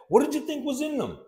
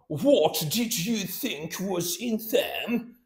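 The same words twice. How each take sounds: First: The words are run together smoothly. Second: Each word is said separately and fully. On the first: The speaker calls it right. "she connected everything" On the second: The speaker calls it wrong. "No, no, hell no"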